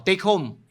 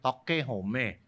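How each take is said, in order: First: It is said with an English accent. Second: It is said with a Japanese accent.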